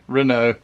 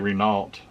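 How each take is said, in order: First: It is said with a French pronunciation. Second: It is said with an English pronunciation. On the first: "I'm saying it right too" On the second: "I would say Renault, but I'm not French either"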